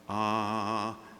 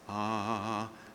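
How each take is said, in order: First: The vowel starts with a clean, balanced onset. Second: The vowel starts with a clean, balanced onset.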